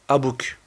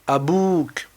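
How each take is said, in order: First: The vowel after the b is short. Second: The vowel after the b is held long. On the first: The speaker calls it wrong. "on ne dira pas abouk" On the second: The speaker calls it right. "il faudra mettre deux temps pour pouvoir prolonger"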